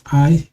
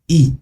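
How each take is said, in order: First: The letter is given its English pronunciation. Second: The letter is given its Kinyarwanda pronunciation. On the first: "in English, it's I" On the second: "in Kinyarwanda, it's e"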